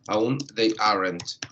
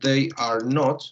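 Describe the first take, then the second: First: The verb and not are joined together. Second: The verb and not are said separately. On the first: "prácticamente es igual a" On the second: "lo que es un they are not"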